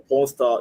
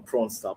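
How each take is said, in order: First: Said in the usual way. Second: "prawn star" with a long open aw vowel like the seafood; joking prawn. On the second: Shown as a demonstration. Telling the chat about a video, saying "prawn star" jokingly. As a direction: say "prawn star" as a deliberate mock mispronunciation of porn. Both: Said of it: "uh, prawn, prawn star".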